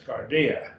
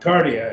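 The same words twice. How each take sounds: First: The stress falls on the middle syllable. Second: The stress falls off the middle syllable. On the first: The speaker calls it right. "the iota gets the accent" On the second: The speaker calls it wrong. "It's not cardia"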